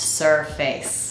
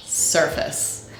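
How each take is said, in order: First: "surface" said sur-FACE, as two full words; full "face" vowel ending "surface"; slow "surface" with a wrong, unreduced AY; spelling pronunciation. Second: "surface" said SUR-fis, slowly; weak, short vowel in the end of "surface"; reduced second syllable. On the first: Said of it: "this word is not pronounced surface". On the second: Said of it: "this word is pronounced surface". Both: Shown as a demonstration.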